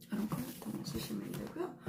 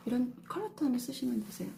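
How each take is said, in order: First: Soft whisper, ending on a rise; whispered repeat. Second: Said in the usual way. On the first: Shown as a demonstration. Teacher repeats the color tip to viewers, whispered. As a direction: breathe the tip again as a quiet aside.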